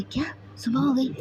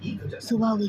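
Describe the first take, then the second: First: A quick hushed gasp of surprise; half-whispered disbelief that morning came; startled whisper. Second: Said in the usual way. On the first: Acted. Siddharth, caught out at dawn, whispers in surprise. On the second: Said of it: "अब Bano romance करना, पहले घर जाओ".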